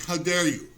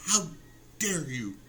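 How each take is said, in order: First: Lightly mocked outraged scolding; a hint of satirical indignation; Greta Thunberg. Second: Slow, broken-up mock indignation; Greta Thunberg. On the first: Comedian reading his own satirical post, lightly mock-outraged. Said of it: "Greta Thunberg, kinda". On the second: Comedian showing his post is satire, drawn-out mock outrage. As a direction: pause heavily after "How" for satirical outrage. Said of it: "that should tell you it's satire".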